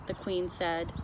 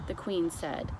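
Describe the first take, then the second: No difference in how they are said.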